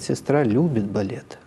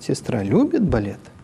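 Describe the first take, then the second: First: The pitch falls steadily like a statement. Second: The pitch rises sharply, then drops, like a question. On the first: The speaker asserts it as a fact. "Интонационная конструкция номер один утверждает" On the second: The speaker asks whether it is true. "Номер три спрашивает"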